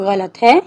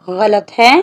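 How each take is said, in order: The two takes are said the same way.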